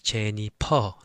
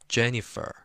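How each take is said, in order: First: The middle consonant is a P sound. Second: The middle consonant is an F sound.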